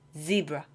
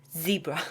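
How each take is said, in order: No difference in how they are said.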